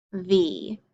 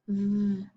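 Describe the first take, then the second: First: Said in the usual way. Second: V as a soft buzzing sound, not the name; letter sound. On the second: Shown as a demonstration. Teacher gives the sound of the v card, softly. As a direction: hum a quiet v sound.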